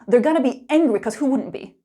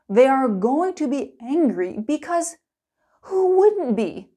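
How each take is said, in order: First: It is spoken fast with reduced forms. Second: It is spoken slowly with full word forms. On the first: "Let's get angry" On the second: "slow and clear"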